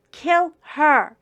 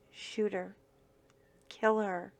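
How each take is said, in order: First: Kill her yelled higher and much louder; shouted order. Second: Said in the usual way. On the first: Retold or imitated. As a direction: bark Kill her as the gunman. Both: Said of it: "looks at the other gunman and says".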